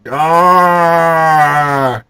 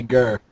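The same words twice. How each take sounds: First: Loud growled Gar; bear growl. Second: Said in the usual way. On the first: Acted. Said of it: "he said". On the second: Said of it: "can't do Vivian voice".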